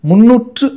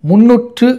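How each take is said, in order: Both takes have the same delivery.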